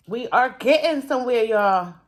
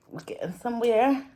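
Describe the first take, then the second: First: "are" said in full and stressed, firm and upbeat; emphatic ARE. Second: Said in the usual way. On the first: Real, not acted. Creator telling viewers of progress, stressing "are getting".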